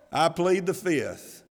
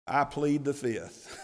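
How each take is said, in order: First: Slow, deliberate mock legal plea; mock lawyer plea. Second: Slow plea breaking into a laugh; laughing mock plea. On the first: Priests dodging Jesus's question like lawyers, slow mock plea. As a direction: spell it out like a cagey lawyer. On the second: Priests dodging Jesus's question, laughing plea. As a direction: chuckle through the lawyer's line. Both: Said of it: "like any good lawyer would tell them".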